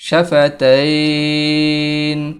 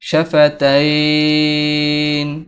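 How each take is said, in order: The two takes are said the same way.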